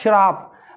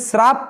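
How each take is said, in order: First: The first sound is a hushing sh, tongue raised. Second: The first sound is a plain hissing s. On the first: The speaker calls it right. "मतलब जीभ को तालू में अड़ाना आपको" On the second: The speaker calls it wrong. "इसे श्राप पढ़ते हैं, गलत"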